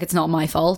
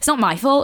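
First: It is said in a calm, collected tone. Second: It is said in a cheeky, sassy tone.

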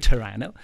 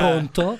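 First: Toronto is said the Canadian way, clipped. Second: Toronto is said the Italian way, fully pronounced.

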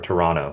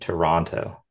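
First: The second T is softened or dropped. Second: The second T is pronounced clearly and hard. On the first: This is how a Canadian says it. The speaker calls it right. "Or Toronto, sorry" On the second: This is how an American says it. The speaker calls it wrong. "hardening that T in there, the second T. So American of me"

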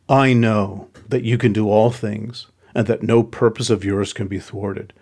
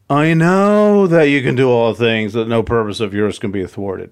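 First: It sounds sincere and submissive. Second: It sounds sarcastic and exasperated.

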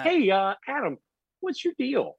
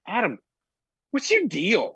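First: It is said in a friendly, gentle tone. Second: It is said in a rough, tough tone.

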